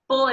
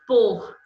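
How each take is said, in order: First: The word is said unstressed and weak. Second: The word is said stressed and strong. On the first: It is the preposition. "é uma preposição" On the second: It is the verb 'to put'. "é o verbo pôr"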